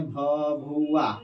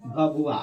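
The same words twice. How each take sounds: First: Teacher drilling Bhabua slowly; slow drawn-out naming. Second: Said in the usual way. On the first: Shown as a demonstration. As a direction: stretch Bhabua out very slowly, syllable by syllable. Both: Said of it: "जिसको हम लोग भभुआ कहते हैं".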